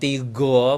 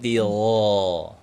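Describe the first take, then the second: First: The consonant is a hard G sound. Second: The consonant is a throaty gh sound. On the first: The speaker calls it wrong. "huruf ghoinnya itu jangan huruf G ya ... bukan tigo" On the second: The speaker calls it right. "tapi tigo"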